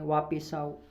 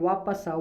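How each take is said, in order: First: The first word ends with a 'pis' sound. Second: The first word ends with a 'pas' sound. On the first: The speaker calls it wrong. "वापिस होता ही नहीं है" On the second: The speaker calls it right. "हमेशा वापस होता है"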